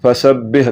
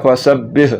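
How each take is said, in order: The two takes are said the same way.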